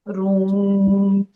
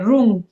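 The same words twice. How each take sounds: First: The word is said lightly and drawn out long. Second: The word is said short with a forceful stroke. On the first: The speaker calls it right. "Light लेकिन लंबा करना है" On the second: The speaker calls it wrong. "जब हम लोग रूम बोलते हैं"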